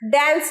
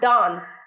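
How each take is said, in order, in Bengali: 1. স্বরধ্বনিটি 'cat'-এর 'a'-এর মতো শোনায়। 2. স্বরধ্বনিটি 'father'-এর 'a'-এর মতো শোনায়।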